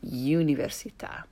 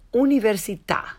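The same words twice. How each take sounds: First: The u is said with a y glide. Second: The u is a pure vowel with no glide. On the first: The speaker calls it wrong. "rather than università" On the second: The speaker calls it right. "And università"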